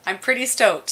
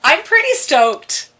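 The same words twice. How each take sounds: First: Said in the usual way. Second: Higher and slower, savoring the word pretty; host thrilled to introduce the guests, excited. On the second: Real, not acted. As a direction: gush with real delight.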